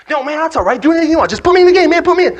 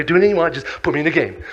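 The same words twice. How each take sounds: First: Very high, loud, impatient begging; frantic plea. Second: Slightly raised, keen agreement; eager plea. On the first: Player begging coach to put him in, frantic. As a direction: shout over the explanation, desperate to play. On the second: Player agreeing to anything to get in, eager. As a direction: brush off any worry eagerly. First, milder plea to play. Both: Acted.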